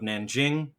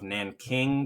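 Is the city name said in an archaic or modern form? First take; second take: modern; archaic. First: The name is said in its modern form. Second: The name is said in an older form.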